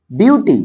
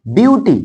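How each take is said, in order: Both takes have the same delivery.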